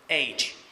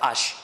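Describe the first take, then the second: First: The letter name is said with English pronunciation. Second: The letter name is said with French pronunciation. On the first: "en anglais on va dire H" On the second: "en français on va dire H"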